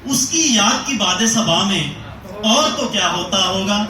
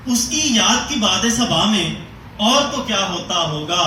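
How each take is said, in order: Both takes have the same delivery.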